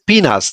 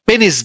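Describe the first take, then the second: First: The first vowel is long, like 'pee'. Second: The first vowel is short, like 'peh'. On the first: This is the English pronunciation. The speaker calls it right. "ইংরেজিতে উচ্চারণ হচ্ছে পিনাস" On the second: This is how Bangladeshi speakers usually say it. The speaker calls it wrong. "আমরা আহ পেনিস বলি"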